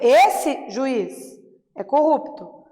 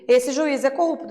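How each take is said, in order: First: There are pauses before and after juiz. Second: It is said without any pause around juiz.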